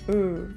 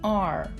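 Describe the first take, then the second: First: It is said as a bare consonant sound. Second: It is said as the full letter name. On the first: "but the sound is R" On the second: "The name of the letter is R"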